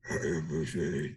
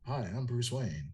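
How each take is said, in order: First: It is said in a deep Batman voice. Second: It is said in a normal voice.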